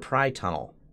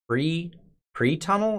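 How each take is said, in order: First: The first syllable sounds like 'pry'. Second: The first syllable sounds like 'pree'. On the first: "pri is in private" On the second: "Is it pre-tunnel or pri-tunnel?"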